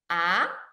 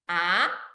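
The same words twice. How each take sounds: The two takes are said the same way.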